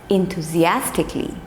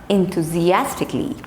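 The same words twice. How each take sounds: The two takes are said the same way.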